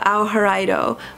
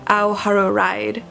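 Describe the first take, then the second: First: The last word is said as Japanese-style 'raido'. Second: The last word is said as English 'ride'. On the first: The speaker calls it right. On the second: The speaker calls it wrong.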